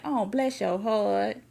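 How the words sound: It sounds mocking and condescending.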